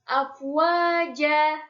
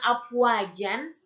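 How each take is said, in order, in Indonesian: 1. Kata ini berakhir dengan vokal a panjang. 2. Kata ini berakhir dengan bunyi n. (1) "menjadi afwaja" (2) "awalnya afwajan"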